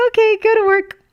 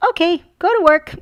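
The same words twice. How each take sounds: First: Even higher, louder child imitation; daughter's voice. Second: High, loud chirpy child imitation; daughter's voice. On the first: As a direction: squeal it like the delighted kid. Retelling daughter's line laughing. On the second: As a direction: chirp it like a cheerful kid. Mom voicing daughter in story.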